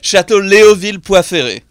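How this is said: The name is said with a French accent. "In French, yeah"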